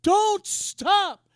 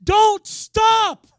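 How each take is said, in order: First: Raised, firm urging; loud insistent repeat; repeated command. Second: High, loud urgent command; loud charge: don't stop; commanding voice of God. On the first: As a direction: press the words home again. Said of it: "He said". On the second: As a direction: call it out like a divine order. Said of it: "I heard the Lord say this". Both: Retold or imitated.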